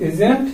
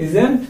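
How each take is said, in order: Both takes have the same delivery.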